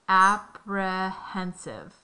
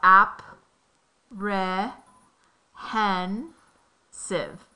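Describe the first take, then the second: First: The syllables are joined smoothly into one word. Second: Each syllable is said separately with pauses between.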